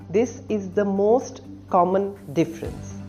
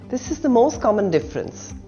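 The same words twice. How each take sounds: First: The t in 'most' is clearly pronounced. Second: The t in 'most' is dropped.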